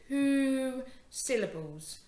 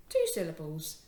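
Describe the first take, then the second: First: TWO stretched long and high; stress on TWO. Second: Said in the usual way. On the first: Shown as a demonstration. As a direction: draw out "two", then "syllables". Teacher stressing the syllable count.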